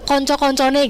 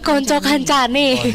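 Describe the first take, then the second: First: The second word is said with 'o' vowels. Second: The second word is said with 'a' vowels. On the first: The speaker calls it wrong. "ternyata tuh salah" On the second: The speaker calls it right. "Yang bener"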